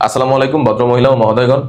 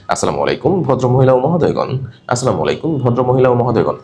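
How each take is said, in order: First: Smooth, pleasant read ending on a rise; gentle announcement tone. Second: Flat, speechy read of আসসালামু আলাইকুম; stiff speech tone. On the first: Teacher showing the right announcement tone. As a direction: greet the passengers kindly. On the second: Teacher showing the wrong announcement tone. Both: Shown as a demonstration. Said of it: "not like that".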